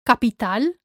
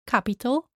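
First: Capital as Spanish ka-pee-TAL; Spanish pronunciation. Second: Capital as English CAP-i-tul; English pronunciation. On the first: Teacher shows learners the Spanish word, ka-pee-TAL for Capital. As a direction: stress the last A in Capital, Spanish style. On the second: Teacher contrasts with Spanish, English CAP-i-tul for capital. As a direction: stress the first syllable of capital, English style. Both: Shown as a demonstration. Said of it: "same in English and in Spanish".

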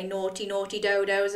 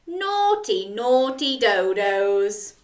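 First: Said in the usual way. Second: Wag a finger, playfully; mock scolding. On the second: Shown as a demonstration. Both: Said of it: "Can you say".

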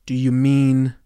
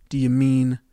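No difference in how they are said.

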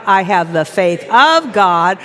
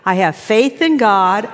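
First: Slow affirmation, "of" punched out; stress on OF. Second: Slow affirmation leaning on "in"; weight the word "in" in "faith in God"; stress on IN. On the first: Preacher leads the congregation's affirmation, stressing "of". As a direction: hit the word "of" in "faith of God". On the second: Preacher leads the congregation's affirmation, stressing "in". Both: Shown as a demonstration. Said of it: "Now say that".

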